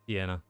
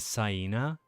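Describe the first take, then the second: First: It is said like the Italian place name. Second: It is said rhyming with the word hyena. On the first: "like the Italian thing" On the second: "like a hyena"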